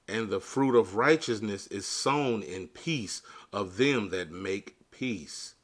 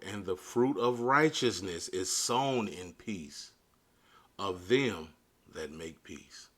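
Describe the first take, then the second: First: It is read at a normal pace. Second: It is read noticeably more slowly.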